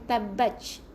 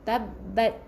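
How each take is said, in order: First: The final t has a strong burst of air. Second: The final t has a slight puff of air. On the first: The speaker calls it wrong. "jangan banyak sangat, bukan tabbatch" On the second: The speaker calls it right. "Kena keluarkan angin tapi jangan banyak sangat"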